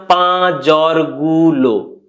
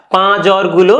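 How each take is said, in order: First: "পা জ্বরগুলো" stretched very slowly; slow drawn-out repeat. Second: Said in the usual way. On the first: Shown as a demonstration. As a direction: drag out "পা জ্বরগুলো" word by word. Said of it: "আর বলছি না". ("পা জ্বরগুলো" খুব ধীরে টেনে বলা)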